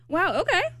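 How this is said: It sounds sarcastic and mocking.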